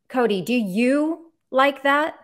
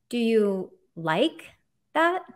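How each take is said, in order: First: The stress is on "you". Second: The stress is on "like".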